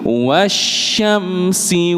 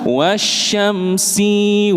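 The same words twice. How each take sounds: First: The vowel after the s is kept short. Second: The vowel after the s is drawn out long. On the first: The speaker calls it right. "Sinya pendek" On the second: The speaker calls it wrong.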